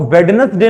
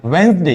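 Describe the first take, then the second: First: वेडनेसडे misread as "wed-nes-day"; wrong reading with D. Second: वेडनेसडे said "wens-day"; silent first D. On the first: Teacher shows what not to say, "wed-nes-day" for वेडनेसडे. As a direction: sound all three syllables and the D in वेडनेसडे. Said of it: "इसको हम वेडनेसडे नहीं पढ़ेंगे". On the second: Teacher gives students the right reading, "wens-day" for वेडनेसडे. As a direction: drop the first D in वेडनेसडे, two syllables. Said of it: "इसको हम क्या पढ़ते हैं?". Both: Shown as a demonstration.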